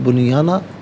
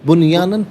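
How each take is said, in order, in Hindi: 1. यह शब्द लंबे a स्वर से खत्म होता है। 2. यह शब्द n की आवाज़ से खत्म होता है। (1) "वफ़ की सूरत में बुनियाना पढ़ा जाएगा" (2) "बुनियानन पढ़ेंगे"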